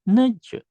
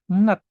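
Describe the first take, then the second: First: The word ends in a j sound. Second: The word ends in a t sound. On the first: The speaker calls it wrong. "dibacanya bukan nej" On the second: The speaker calls it right. "dibacanya adalah net"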